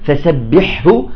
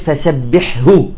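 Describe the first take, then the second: No difference in how they are said.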